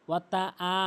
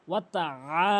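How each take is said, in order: First: আ as a simple open vowel, no throat squeeze; wrong plain vowel. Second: আ squeezed from the middle of the throat; throaty ayn. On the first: Teacher showing how not to do it, plain আ. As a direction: say ওয়াতা আ with an ordinary "aa". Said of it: "এরকম না". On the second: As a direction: stretch আ after ওয়াতা, tight in the throat. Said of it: "হলকের মাঝখান থেকে". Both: Shown as a demonstration.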